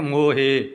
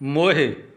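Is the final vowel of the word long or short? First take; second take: Long; Short. First: The final vowel is long and drawn out. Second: The final vowel is short and clipped. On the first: The speaker calls it wrong. "ਹਾਹੇ ਸਿਹਾਰੀ ਨੂੰ ਹਾਹੇ ਲਾ ਕੇ ਬੋਲ ਦਿੰਦੀਆਂ ਨੇ" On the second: The speaker calls it right. "ਇਸ ਤਰ੍ਹਾਂ ਉਚਾਰਨ ਕਰਨਾ ਹੈ"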